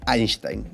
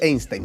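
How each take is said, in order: First: The name is said in a careful, formal way. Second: The name is said in a casual, everyday way. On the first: This is the proper way, used on the program. "me puedo dar el lujo de decir Einstein" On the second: This is how people say it among friends. "en la calle con mi amigo uno en general dice Einstein nomás"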